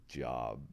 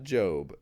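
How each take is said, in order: First: "Job" said as the word job, short o; "Job" rhymes with rob; "Job" pronounced like a work job. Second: "Job" said with a long o, like robe; "Job" as the name from the Bible, drawn-out o; "Job" pronounced jobe, long o; biblical name Job. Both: Shown as a demonstration. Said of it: "It's not Job, J O B".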